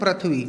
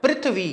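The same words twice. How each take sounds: First: "पृथ्वी" as prath-vee, with ra; common mispronunciation. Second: "पृथ्वी" as prith-vee, i after pr; a soft prithvi for "पृथ्वी"; correct pronunciation. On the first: Teacher showing what we wrongly say, "पृथ्वी" as prathvi. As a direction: drop softly onto prathvi for "पृथ्वी", a in place of i. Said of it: "हम बोल क्या देते हैं?". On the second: Teacher modelling the correct sound for pupils, "पृथ्वी" as prithvi. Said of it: "क्या है उच्चारण?". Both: Shown as a demonstration.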